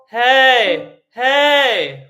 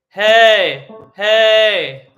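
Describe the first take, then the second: First: It is said at a middle baritone pitch. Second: It is said at a low bass pitch.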